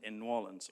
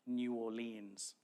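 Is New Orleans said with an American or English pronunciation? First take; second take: American; English. First: It is said the American way. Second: It is said the English way.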